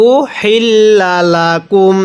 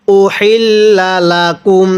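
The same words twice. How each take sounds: First: Tajweed recitation. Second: Said in the usual way. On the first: Shown as a demonstration. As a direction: chant উহিল্লা লাকুম as in Quran recitation. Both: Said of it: "কিভাবে পড়ব?".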